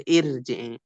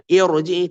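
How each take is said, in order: First: "irji'i" with a thin r after a clear i; "irji'i" as the mistaken thin reading; wrong light ra. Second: "irji'i" with a thick r, like "irojii"; loud, heavy rolled r in "irji'i". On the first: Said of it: "tidak dibaca irji'i". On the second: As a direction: round the r in "irji'i". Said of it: "tetap dibaca tebal". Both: Shown as a demonstration.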